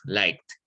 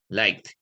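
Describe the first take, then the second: First: The word ends with a t sound. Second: The word ends with a d sound. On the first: "o como una T incluso" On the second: "ya suena como una D al final"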